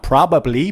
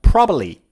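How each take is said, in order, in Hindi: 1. 'probably' के तीनों अक्षर साफ़ बोले जाते हैं। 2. 'probably' को कम और तेज़ अक्षरों में समेटा जाता है। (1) "Not probably" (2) "Say it fast"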